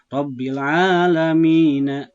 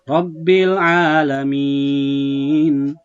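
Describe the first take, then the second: First: The vowel before the last sound is held short. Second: The vowel before the last sound is held long. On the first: The reader goes on without stopping. "asalnya Rabbil Alamin, dua harokat" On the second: The reader stops at this word. "diwakof pada Robil Alamin, maka bacaannya lebih panjang"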